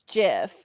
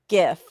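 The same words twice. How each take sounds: First: It starts with a soft G sound. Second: It starts with a hard G sound. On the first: "my son says GIF" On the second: "feels like it should be a hard G"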